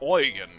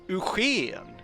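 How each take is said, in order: First: The name is said with German pronunciation. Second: The name is said with Swedish pronunciation. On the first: "pronounce it in German" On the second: "Swedish name places in Swedish"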